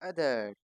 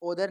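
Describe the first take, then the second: First: The first vowel is a short 'uh' sound. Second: The first vowel is an 'o' sound. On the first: The speaker calls it right. "अब इसको अदर ही बोलते हैं" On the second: The speaker calls it wrong. "ओदर नहीं कहते इसको हम"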